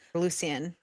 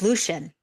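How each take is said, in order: First: The name is said in a French style. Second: The name is said in an English style. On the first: "Or sometimes like the Frenchy way" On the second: "It's Lucian"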